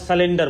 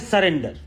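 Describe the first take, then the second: First: The second syllable is said as 'len'. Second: The second syllable is said as 'ren'. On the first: The speaker calls it wrong. "सरेंडर को सलिंडर और सलेंडर बोल रहे हैं" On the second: The speaker calls it right. "होता है सरेंडर"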